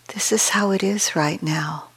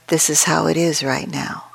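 First: It is said in a warm, caring tone. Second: It is said in a dry, flat tone.

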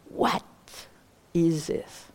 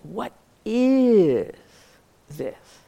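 First: The stress is on "what". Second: The stress is on "is".

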